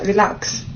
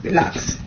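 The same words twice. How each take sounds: First: Calm relax. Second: Relax breathed in a whisper; hushed whisper of Relax. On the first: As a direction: settle the crowd down gently. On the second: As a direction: whisper it like a secret. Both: Shown as a demonstration.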